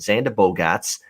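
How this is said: The name is said in a Boston accent.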